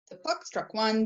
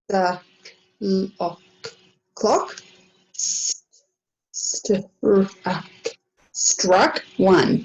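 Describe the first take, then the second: First: It is read smoothly, without stops or restarts. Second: It is read haltingly, with stops and restarts. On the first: The reader has practiced the text before. The speaker calls it right. "Much more fluent" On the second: The reader is sounding out unfamiliar words. The speaker calls it wrong. "It was a bit stop-start"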